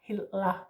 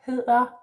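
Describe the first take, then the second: First: The middle consonant sounds like an L, tongue raised. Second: The middle consonant is a soft d, tongue low. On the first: The speaker calls it wrong. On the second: The speaker calls it right.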